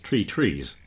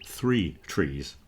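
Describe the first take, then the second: First: The first word starts with a plain T sound. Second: The first word starts with a soft TH sound. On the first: "the unvoiced one in Ireland is usually pronounced the same as a T" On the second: "meaning three trees"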